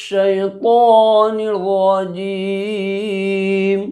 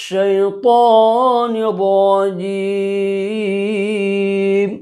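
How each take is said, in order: No difference in how they are said.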